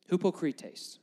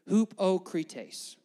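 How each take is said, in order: First: The word is said quickly. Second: The word is said slowly.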